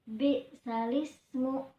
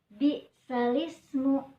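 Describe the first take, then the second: The two takes are said the same way.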